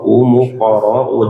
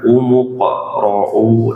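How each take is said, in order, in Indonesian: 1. Bunyi q dipantulkan cepat tanpa berhenti. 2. Bunyi q ditahan lama dengan berhenti. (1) "jangan berhenti tapi dipantulkan aja" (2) "jangan berhenti lama"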